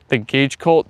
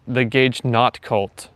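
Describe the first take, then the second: First: "cult" rising as a question. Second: "not cult" drawn out slowly, falling at the end; correcting. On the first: Acted. Streamer reads back a viewer's wrong name, questioning. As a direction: query it, voice lifting on "cult". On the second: Real, not acted. Streamer corrects a viewer on the group's name, slow correction. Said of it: "No, the Gage not cult".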